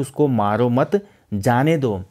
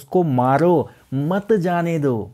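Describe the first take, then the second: First: There is a pause after the word 'mat'. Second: There is a pause after the word 'maro'. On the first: Do not hit him; let him go. "ऊपर वाला वाक्य बोलता है कि उसको मारो मत जाने दो, भाई रिलीज कर दो" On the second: Hit him; do not let him go. "दूसरा वाला वाक्य बोलता है उसको मारो मत जाने दो, यानी कि इसको मारो"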